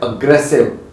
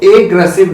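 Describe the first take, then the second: First: एग्रेसिव opening on a weak short uh, "uh-GRES-iv"; correct pronunciation. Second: एग्रेसिव opening on a full long A, "ay-gressive"; wrong pronunciation. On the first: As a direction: reduce the first vowel of एग्रेसिव. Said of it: "इसको बोलते हैं". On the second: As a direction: show the mistaken "AY" start of एग्रेसिव. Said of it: "इसको एग्रेसिव नहीं बोलते". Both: Shown as a demonstration.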